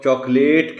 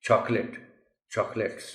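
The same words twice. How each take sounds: First: چاکلیٹ as "chock-LATE"; loud long second syllable in چاکلیٹ; mispronounced چاکلیٹ. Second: Chocolate as "CHOCK-lit"; two syllables in chocolate, stress on the first; correct chocolate. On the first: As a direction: read چاکلیٹ as spelt, long "late" at the end. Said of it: "کہے گا اس کو". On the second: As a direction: say chocolate with a short, unstressed last vowel. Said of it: "the correct pronunciation of the word is". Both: Shown as a demonstration.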